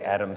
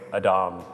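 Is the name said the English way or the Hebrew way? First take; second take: English; Hebrew. First: The name is said with an English pronunciation. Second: The name is said with a Hebrew pronunciation. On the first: The speaker calls it wrong. "don't say Adam" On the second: The speaker calls it right. "say Adam"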